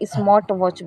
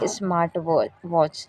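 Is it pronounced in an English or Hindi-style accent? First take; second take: Hindi-style; English. First: It is said with a Hindi-style pronunciation. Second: It is said with an English-style pronunciation. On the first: The speaker calls it wrong. "उसको मैं स्मार्ट वॉच बोलती थी" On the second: The speaker calls it right. "I was unable to pronounce it स्मार्ट वॉच"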